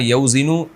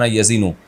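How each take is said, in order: First: A w sound follows the first vowel. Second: The first syllable has no w sound. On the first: "वज़न यौज़िनु को" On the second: "पढ़ा जाता है वज़न यज़िनु"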